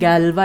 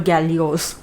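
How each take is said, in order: First: The name ends in a plain vowel, no s. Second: The name has three syllables ending in -os. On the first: The speaker calls it right. "which we pronounce by saying Galva" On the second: The speaker calls it wrong. "Or Gallios"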